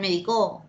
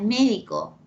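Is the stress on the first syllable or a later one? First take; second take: later; first. First: The stress falls on a later syllable. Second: The stress falls on the first syllable. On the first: The speaker calls it wrong. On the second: The speaker calls it right.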